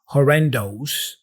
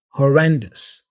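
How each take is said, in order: First: The final syllable sounds like "ohs". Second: The final syllable sounds like "us". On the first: The speaker calls it wrong. "with an O's at the end" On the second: The speaker calls it right. "sounds like us"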